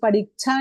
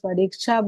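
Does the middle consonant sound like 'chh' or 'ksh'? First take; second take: chh; ksh. First: The middle consonant sounds like a plain 'chh'. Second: The middle consonant sounds like 'k' plus 'sh'. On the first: The speaker calls it wrong. "उसको परीक्षा नहीं बोलेंगे" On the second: The speaker calls it right. "उसको परीक्षा बोलेंगे"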